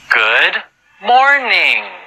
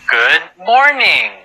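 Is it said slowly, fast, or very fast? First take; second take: slowly; fast. First: It is said slowly. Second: It is said fast.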